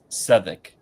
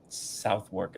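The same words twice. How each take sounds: First: It is said as 'Suthuk', without 'south' or 'work'. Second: It is said as 'South-work', as spelled. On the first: The speaker calls it right. "It's pronounced Southwark" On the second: The speaker calls it wrong. "Southwark is not correct"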